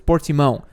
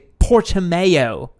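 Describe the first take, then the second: First: The name is said with a Portuguese pronunciation. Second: The name is said with an English-style pronunciation. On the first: The speaker calls it right. "how it would normally be pronounced" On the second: The speaker calls it wrong. "the British people say it"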